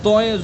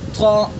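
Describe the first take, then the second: First: It ends in an 'oy' sound. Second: It ends in a long 'ah' vowel. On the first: The speaker calls it wrong. "बहुत से लोग इसको तोए पढ़ते हैं, ये गलत है" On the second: The speaker calls it right. "बल्कि अलिफ के साथ पढ़ेंगे"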